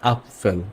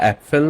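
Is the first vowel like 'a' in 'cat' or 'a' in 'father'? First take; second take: father; cat. First: The first vowel is like 'a' in 'father'. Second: The first vowel is like 'a' in 'cat'. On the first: The speaker calls it right. "এটা হবে আপফেল" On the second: The speaker calls it wrong. "এটা অ্যাপেল না বা অ্যাপফেল না"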